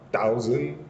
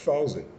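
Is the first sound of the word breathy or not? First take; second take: not breathy; breathy. First: The first sound is not a breathy voiceless th. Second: The first sound is a breathy voiceless th. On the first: The speaker calls it wrong. "ce n'est pas thousand" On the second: The speaker calls it right. "mais c'est plutôt thousand"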